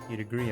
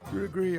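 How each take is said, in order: First: It is said in a normal voice. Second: It is said in an old lady voice.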